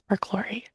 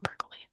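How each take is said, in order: First: It is said with a k-l-or sound after per. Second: It is said with no l sound after per. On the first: The speaker calls it right. "I think it's perchlorate" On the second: The speaker calls it wrong. "I believe I mispronounced it"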